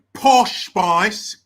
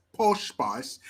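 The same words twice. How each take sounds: First: Loud, put-on British pronunciation; mock British accent. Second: Said in the usual way. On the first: Shown as a demonstration. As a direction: punch out the name in British. Name repeated in British accent.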